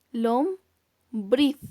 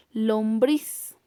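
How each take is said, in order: First: Lombriz broken as LOM... BRIZ, with a long pause; teacher's syllable-by-syllable Lombriz, ending on BRIZ; split into syllables. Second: Said in the usual way. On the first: Shown as a demonstration. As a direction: say Lombriz in two separate syllables, stress on BRIZ. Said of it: "Su mayor intensidad de voz está en la última sílaba". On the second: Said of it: "Veamos otro ejemplo".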